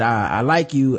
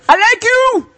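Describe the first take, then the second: First: Lightly voiced African accent, calm; a hint of a mock African accent, said quietly; softer take, bad African accent. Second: High, loud mock African accent yelling the line; terrible African impression. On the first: Host offers a calmer take in a hint of an African accent. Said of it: "No, I just think he said". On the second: Host hams up a scammer's greeting in a bad African accent. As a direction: yell it like a scam email with a bad African accent. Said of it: "that is a terrible African impression".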